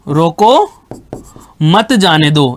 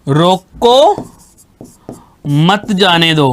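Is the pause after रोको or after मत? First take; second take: after रोको; after रोको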